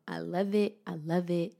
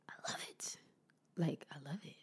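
First: Said in the usual way. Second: Whispering. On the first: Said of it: "repeated affirmation". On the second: Real, not acted. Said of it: "repeated affirmation, whispered".

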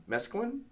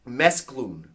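First: "Mesclun?" as MES-klun, rising high and soft; tentative, higher "Mesclun?" like a question; unsure pronunciation. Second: "Mesclun" said as MES-cloon, falling; trying a pronunciation. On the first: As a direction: ask "Mesclun?" with a short, unstressed ending. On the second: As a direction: say "Mesclun" with a long oo ending, as a statement. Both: Shown as a demonstration. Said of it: "How do you pr".

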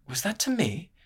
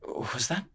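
First: Much higher, affronted "to me"; offended question. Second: Soft, rising, halting start; a quiet, unsure first try; hesitant question. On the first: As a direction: lift the whole line in disbelief. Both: Acted. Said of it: "A slight frown flickered".

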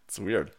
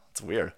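The two takes are said the same way.

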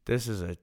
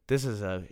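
No difference in how they are said.

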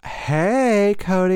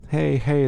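First: High, loud mock greeting; mimicked greeting, pitched way up; put-on different voice. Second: Said in the usual way. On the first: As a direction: imitate an overdone sing-out hello. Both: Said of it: "That was a different voice for me".

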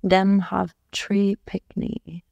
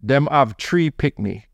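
First: Slow, careful copy of Jamaican patois; a learner's slow attempt at Jamaican patois; imitating Jamaican patois. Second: Slow Jamaican patois, tree for three. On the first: Wife repeating her husband's Jamaican phrase, slow careful patois. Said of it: "Say it again". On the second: Husband demonstrating the Jamaican phrase to his wife, slow patois. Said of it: "say it with a word". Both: Shown as a demonstration.

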